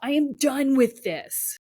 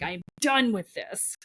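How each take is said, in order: First: Higher, louder, slow and final; fed-up declaration. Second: Said in the usual way. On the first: Pretend. Voicing the fed-up self at full force, slow and loud. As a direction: slam the door on it. Climax of voiced rage. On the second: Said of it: "most powerful statements you can ever make".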